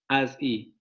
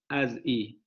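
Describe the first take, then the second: The two takes are said the same way.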